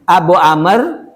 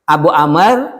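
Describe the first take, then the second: No difference in how they are said.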